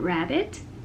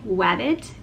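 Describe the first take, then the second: First: The word begins with an R sound. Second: The word begins with a W sound. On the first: The speaker calls it right. "instead of rabbit" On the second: The speaker calls it wrong. "it's very common for children to say wabbit"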